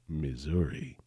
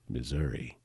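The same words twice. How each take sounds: First: The middle consonant is a buzzing z sound. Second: The middle consonant is a plain s sound. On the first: The speaker calls it wrong. "the Z, that part where I add the Z?" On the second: The speaker calls it right. "So I just say Missouri"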